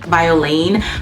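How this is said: It is said with an English pronunciation. "In English it would be pronounced based off of the spelling"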